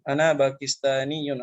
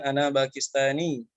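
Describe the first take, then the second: First: The word ends with a full vowel and -un. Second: The word ends cut off without a final vowel.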